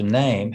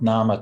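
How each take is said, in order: First: It has one syllable, with a long vowel. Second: It has two syllables, ending in an open vowel. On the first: This is the modern pronunciation. "to name" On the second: This is the older pronunciation. "the pronunciation of nama"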